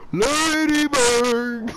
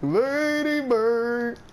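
First: Slow, stretched, louder call; slow Hank Hill calling his dog; Hank Hill calling Lady Bird. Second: Slow stretched call, a bit higher; Hank Hill calling Lady Bird. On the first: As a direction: draw out Lady Bird like a proud Texan owner. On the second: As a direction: drawl Lady Bird slowly once more. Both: Shown as a demonstration. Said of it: "I know how to do it".

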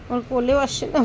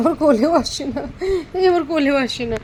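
First: Said in the usual way. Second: Laughing. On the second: Real, not acted. Repeats line with a laugh.

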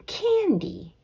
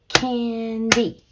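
First: Said in the usual way. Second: "Candy" stretched into CAN, DEE; clapped-out syllables. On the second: Shown as a demonstration. Teacher clapping out the syllables, "Candy" in two beats. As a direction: punch each half of "Candy" as its own beat. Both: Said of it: "Let's clap out the syllables".

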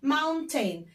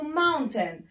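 First: Mountain with each vowel sounded clearly, maun-ten; careful spelling pronunciation. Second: Mountain said quickly with the middle vowel swallowed. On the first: Teacher pronouncing mountain carefully so pupils can spell it. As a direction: say mountain slowly so the spelling shows. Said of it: "نقول ال A وال I". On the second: Teacher imitating how foreigners clip mountain. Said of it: "الأجانب بيخطفوها كده بيقولوا". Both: Shown as a demonstration.

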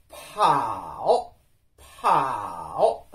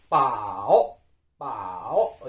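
First: パオ with a puff of air after the P, drawn out; delay the vowel in パオ with an audible breath; slow aspirated パオ. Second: パオ with no puff after the P, drawn-out dipping tone; slow unaspirated パオ. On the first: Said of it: "子音を発音してから母音を発音する間にちょっと時間的差異がある". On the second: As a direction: go straight from P into the vowel in パオ, slowly. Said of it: "無気音です". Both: Shown as a demonstration.

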